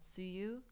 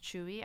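First: The name begins with a 'ts' sound. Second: The name begins with a 'ch' sound. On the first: The speaker calls it wrong. "I know I was pronouncing it as Tsuyu" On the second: The speaker calls it right. "T-Z-U-Y-U is pronounced Chewy"

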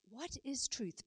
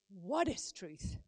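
First: It is asked with sincere curiosity. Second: It is said dismissively, not wanting an answer.

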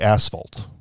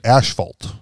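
First: The word is pronounced in the usual way. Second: The word is pronounced in an altered way. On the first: The first syllable sounds like a rude word. The speaker calls it right. "He won't even say asphalt" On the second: The rude-sounding syllable is avoided. The speaker calls it wrong. "he mispronounces it every time he's talking about it. He calls it asphalt"

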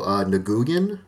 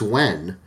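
First: The name is sounded out following its spelling. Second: The name sounds like the single word 'Wen'. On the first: This is how people unfamiliar with the name say it. The speaker calls it wrong. "But some people go" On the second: This is the name's usual pronunciation. The speaker calls it right. "like it's Wen"

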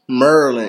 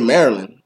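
First: The first syllable is said as 'Murr'. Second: The first syllable is said as 'Mary'. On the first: This is how locals say it. "it was like M-U-R-R and then land" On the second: This is how people elsewhere say it. "They say it the correct way"

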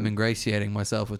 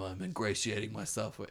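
First: The voice stays flat in pitch, sounding monotone. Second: The voice varies in pitch, sounding expressive. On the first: The speaker calls it right. "it should be more monotone than that" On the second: The speaker calls it wrong. "it should be more monotone than that"

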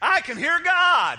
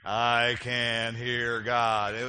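First: It is said firmly and with conviction. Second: It is said weakly and without conviction. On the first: The speaker calls it right. "Let's try it a little more convincing. Say it like this" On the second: The speaker calls it wrong. "it sounded very"

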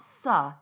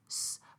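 First: The s sound ends with a short vowel. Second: The s sound is said with no vowel. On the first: The speaker calls it wrong. "So it's not su" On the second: The speaker calls it right. "it's s"

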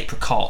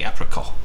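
First: The word is said with an English accent. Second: The word is said with a French accent. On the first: "But it's an apricot" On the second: "in the French accent, we'd say apricot"

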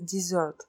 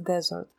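First: The stress is on the second syllable. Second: The stress is on the first syllable. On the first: It is the verb meaning to abandon someone. "Когда оно глагол дезертировать ... произносится «desert»" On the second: It is the noun meaning a dry barren region. "Когда оно существительное «пустыня», оно произносится «desert»"

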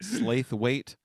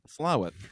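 First: It is said as spelled, 'Slath-wait'. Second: It is said in a shortened form, 'Slow-it'. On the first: "What's the name of that town we were in?" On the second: "How do they say that?"

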